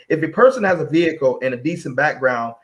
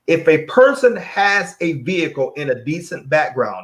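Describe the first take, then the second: First: It is read at a quicker pace. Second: It is read at a slower pace.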